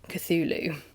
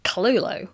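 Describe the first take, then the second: First: The name is said like 'kuh-thoo-loo'. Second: The name is said like 'ka-lo-lo'. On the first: The commonly accepted pronunciation. "the culturally accepted pronunciation, albeit inaccurate" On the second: An attempt at the original, supposedly authentic pronunciation. "I sound like I'm going Kalolo"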